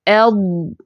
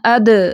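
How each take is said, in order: First: The final consonant is held firmly and sustained. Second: The final consonant is released with a bounce. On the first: The speaker calls it right. "जमाओं के साथ ... इसकी आवाज़ को थोड़ा सा चलाना है" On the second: The speaker calls it wrong. "ऐसे नहीं पढ़ना ... उसको कलकला नहीं बनाना, छोड़ना नहीं है"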